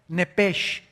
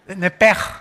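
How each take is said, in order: First: The word ends in a soft sh sound. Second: The word ends in a strong throaty sound. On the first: "así como suena" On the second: "ponen mucho énfasis en el"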